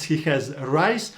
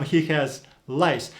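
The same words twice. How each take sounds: First: Slow "He has rice" with a clear R. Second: Slow "He has lice", R turned to L; L instead of R. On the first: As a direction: say "rice" with a firm R. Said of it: "In a simple sentence". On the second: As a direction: let "rice" slip into "lice". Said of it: "rice can quickly become lice". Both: Shown as a demonstration.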